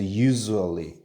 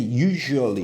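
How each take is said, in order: First: The middle consonant is a buzzing z sound. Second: The middle consonant is a soft j sound. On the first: "S를 z" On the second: "그냥 ju라고 해도 돼요"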